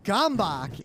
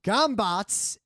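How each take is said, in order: First: The word is said with English sounds. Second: The word is said with Hungarian sounds. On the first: "Gombak in English" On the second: "pronounced Gombats in Hungarian"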